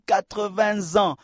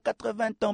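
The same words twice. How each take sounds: First: A linking sound joins the number to 'ans'. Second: The number and 'ans' are not linked. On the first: The speaker calls it right. "on dit 80 ans" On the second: The speaker calls it wrong. "On ne dit pas 80 ans"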